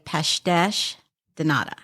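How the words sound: It is said with a Portuguese accent. "in Portugal, they say"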